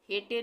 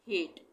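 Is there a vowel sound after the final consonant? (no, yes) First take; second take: yes; no. First: An extra vowel follows the final consonant. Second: The word ends on the consonant. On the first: The speaker calls it wrong. "हेटे नहीं पढ़ेंगे" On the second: The speaker calls it right. "ई का उच्चारण नहीं होगा"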